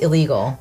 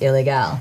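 First: It is said like the English word illegal. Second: It is said with a Spanish pronunciation. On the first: The speaker calls it wrong. "It's not pronounced illegal" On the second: The speaker calls it right. "It's pronounced ilegal because it's Mexican"

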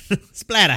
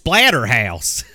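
First: It is said with a northern English accent. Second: It is said with a southern English accent. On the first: "You're from the north, so it's fine" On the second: "down here, it's Splatterhouse"

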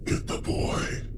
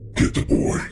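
First: It is said quietly in a raspy, wispy voice. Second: It is said much more loudly.

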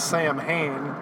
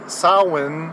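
First: It has a common English-style pronunciation. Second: It has an Irish Gaelic pronunciation. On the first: "most people would know it as Samhain" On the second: "if you want to pronounce it more Irish"

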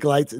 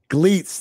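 First: The vowel does not sound like 'glee'. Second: The vowel sounds like 'glee'. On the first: The speaker calls it wrong. "now I'm going to mispronounce his name again" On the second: The speaker calls it right. "Just remember that show Glee. It's Gleets"

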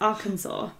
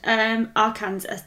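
First: The ending sounds like saw, without Kansas. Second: The ending sounds like the state name Kansas. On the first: The speaker calls it right. "that's pronounced Arkansas" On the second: The speaker calls it wrong. "you said Arkansas"

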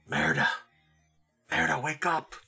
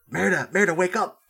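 First: It is said quietly and gently. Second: It is said somewhat louder.

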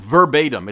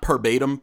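First: The word begins with a v sound. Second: The word begins with a p sound. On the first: The speaker calls it right. "it's verbatim" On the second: The speaker calls it wrong. "It's not perbatim. People say perbatim"

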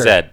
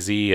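First: The letter is pronounced zed, British style. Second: The letter is pronounced zee, American style. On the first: "British people say Z" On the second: "Americans say Z"

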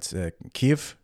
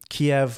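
First: The name is said in the newer form. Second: The name is said in the older form. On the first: The speaker calls it right. "Apparently, it's" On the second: The speaker calls it wrong. "which I'm now learning I was saying incorrectly for the long time"

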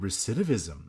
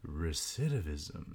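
First: The word is said at normal speed. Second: The word is said slowly and deliberately.

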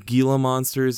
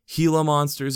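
First: The G is said as a hard G. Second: The G is said like an H.

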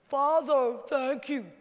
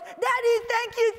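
First: It is said in a calm, unexcited tone. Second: It is said in an excited, eager tone.

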